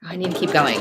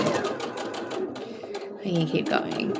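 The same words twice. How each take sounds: First: Said in the usual way. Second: Drawn-out whispered reminder; voiceless, stretched self-reminder; slow whisper to self. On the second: Real, not acted. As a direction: murmur it to yourself, very slowly. Repeating the reminder to herself.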